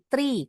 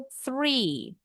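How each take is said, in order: First: "tree" with a hard T at the start; T instead of TH. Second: "three" slow, with a soft TH at the start; tongue tip out to start "three"; correct TH. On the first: Teacher mimics Indonesians saying the number, "tree" with a T. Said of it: "Mereka nyebutnya tree". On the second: Teacher corrects the number for students, "three" with a true TH. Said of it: "Yang betul three". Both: Shown as a demonstration.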